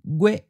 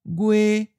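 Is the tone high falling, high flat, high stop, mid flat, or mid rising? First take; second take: high stop; high flat. First: The pitch is high and cut off abruptly. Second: The pitch stays level at a high height. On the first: This is the form used in the lessons. "we'll just stick with the high stop" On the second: This is how it sounds in some other regions. "it may sound like a high flat"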